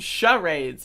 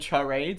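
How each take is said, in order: First: The word begins with an 'sh' sound. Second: The word begins with a 'ch' sound. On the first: The speaker calls it right. "in my head, it was shh" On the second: The speaker calls it wrong. "that's cha"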